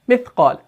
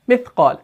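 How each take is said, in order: First: The consonant sound is harsh and stops abruptly. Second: The same.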